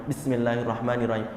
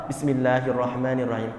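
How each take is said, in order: No difference in how they are said.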